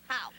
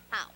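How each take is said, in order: First: It is said with intense passion. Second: It is said with sad pathos.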